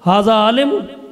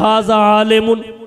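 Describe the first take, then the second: First: It is said as a question. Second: It is said as a plain statement. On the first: Is this person a scholar? "ये इस्तिफ़हामिया बन गया" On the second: This person is a scholar. "जुमला इस्मिया खबरिया है"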